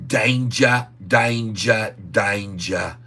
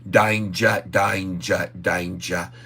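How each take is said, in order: First: It is said in the speaker's plain accent. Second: It is said in a put-on Australian accent.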